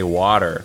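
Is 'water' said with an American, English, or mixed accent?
American. It is said with an American accent. This is what listeners expect to hear. "they're expecting me to say water"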